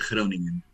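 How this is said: The name is said with Dutch sounds. This is how it is really said locally. "verdadeiramente dita Groningen. Essa é a verdadeira maneira de dizer em holandês"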